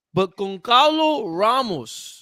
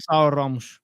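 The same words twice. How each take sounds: First: "Goncalo Ramos" slow, drawn out, Portuguese way; Portuguese pronunciation. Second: "Gonçalo Ramos" with real Portuguese sounds; native-style "Gonçalo Ramos"; Portuguese accent. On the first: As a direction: say "Goncalo" Portuguese style, slowly. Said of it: "pronounce it the Portuguese way". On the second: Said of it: "That's such a great accent". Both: Shown as a demonstration.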